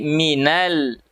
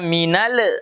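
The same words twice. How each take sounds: First: The final l is held still, no bounce. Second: The final l is released with a bounce. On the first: The speaker calls it right. "tapi minal" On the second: The speaker calls it wrong. "Jangan baca minal"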